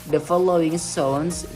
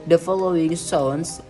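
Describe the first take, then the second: Both takes have the same delivery.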